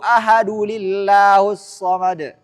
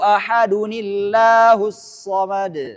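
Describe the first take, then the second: First: No 'n' sound links ahadu to llahus. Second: An added 'ni' sound links ahadu to llahus. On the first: The speaker calls it wrong. "Ini salah" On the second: The speaker calls it right. "itu cara baca yang benar"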